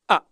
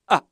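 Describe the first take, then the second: Both takes have the same delivery.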